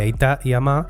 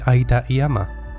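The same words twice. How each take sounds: First: The stress falls on the second syllable. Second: The stress falls on the first syllable. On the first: This is how it is said in one region. "En Guipúzcoa, por ejemplo, se dice aita y ama" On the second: This follows the general rule. "en vez de aita y ama"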